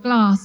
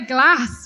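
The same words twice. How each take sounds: First: It is said with a Southern English accent. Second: It is said with a Northern English accent.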